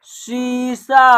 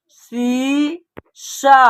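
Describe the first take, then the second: First: शीशा joined as one drawn-out word; blended syllables. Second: शीशा split into two long syllables, शी and शा; separate syllables. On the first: Teacher putting the word together for learners, शीशा slowly blended. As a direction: say शीशा slowly without a break between syllables. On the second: Teacher sounding out a word for learners, शीशा syllable by syllable. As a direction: say शीशा slowly with a gap after शी. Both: Shown as a demonstration. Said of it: "तो एक साथ उच्चारण करेंगे".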